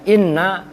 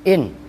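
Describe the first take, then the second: First: The n is doubled and followed by a vowel. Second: The word ends in a plain, vowelless n. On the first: "yang tadinya inna" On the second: "dibaca takhfif itu kan berarti dibaca su sukun"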